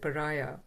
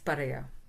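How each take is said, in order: First: The word is said with an English pronunciation. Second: The word is said with a Tamil pronunciation. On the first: "So that's how we pronounce it" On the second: "but in Tamil it's"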